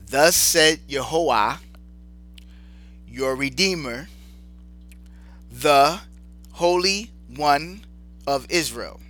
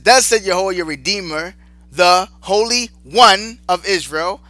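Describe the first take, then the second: First: It is read slowly and deliberately. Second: It is read at a normal pace.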